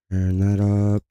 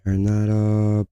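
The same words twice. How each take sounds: The two takes are said the same way.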